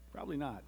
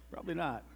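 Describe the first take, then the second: No difference in how they are said.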